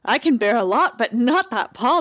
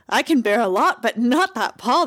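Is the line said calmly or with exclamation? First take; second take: exclamation; exclamation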